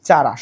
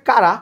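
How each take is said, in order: First: The word begins with a ch sound. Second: The word begins with a k sound. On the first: This is how the class will read the name. "কিন্তু আমরা পড়বো কি, চারা" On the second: This is the actual pronunciation of the name. "ওর উচ্চারণ আসলে কারা"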